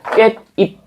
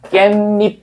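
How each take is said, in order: First: Only the final-sound rule applies, with no inserted sound. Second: An inserted sound links the two syllables together. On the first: "음절 끝소리 규칙 적용하니까 비읍으로 바뀌어서 깻입 이렇게 되는데" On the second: "실제로 우리가 발음할 때는 얘를 사이소리 현상이 적용되니까"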